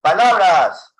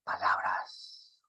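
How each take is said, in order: First: Loud, higher-pitched projection; loud volume. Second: Whispered word, drawn out slowly; low volume. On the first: Teacher demonstrating volume to the class, loudly. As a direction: call the word out loudly. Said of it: "O puedo decir". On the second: Teacher demonstrating volume to the class, whispered. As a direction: say it very softly and slowly. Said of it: "yo puedo decir así". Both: Shown as a demonstration.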